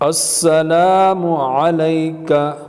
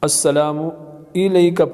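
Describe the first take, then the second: First: The second word begins with an 'a' vowel. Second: The second word begins with an 'i' vowel. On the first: The speaker calls it right. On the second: The speaker calls it wrong.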